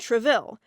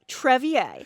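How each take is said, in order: First: The middle consonant is pronounced as an L sound. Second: The middle consonant is pronounced as a Y sound. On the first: The speaker calls it wrong. "I suck at French pronunciation" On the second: The speaker calls it right. "Double L's are Y's"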